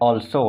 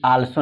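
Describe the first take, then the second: First: The first vowel sounds like 'aw'. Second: The first vowel sounds like 'ah'. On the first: The speaker calls it right. "ऑल्सो होता है यानी औ" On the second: The speaker calls it wrong. "आल्सो नहीं"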